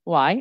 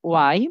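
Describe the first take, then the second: The two takes are said the same way.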